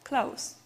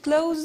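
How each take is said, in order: First: The word ends in a voiceless s sound. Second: The word ends in a voiced z sound. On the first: It is the adjective or adverb meaning near. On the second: It is the verb meaning to shut.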